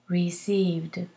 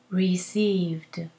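No difference in how they are said.

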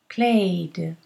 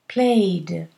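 Both takes have the same delivery.

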